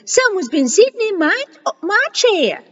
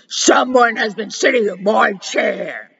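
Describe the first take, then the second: First: It is said in a middle-sized Mama Bear voice. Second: It is said in a big Papa Bear voice.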